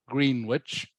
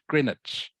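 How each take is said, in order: First: Said like 'green-witch', with the w sounded. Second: Said like 'gren-itch', with the w silent. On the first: The speaker calls it wrong. "it is spelt Greenwich" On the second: The speaker calls it right. "you pronounce it Greenwich"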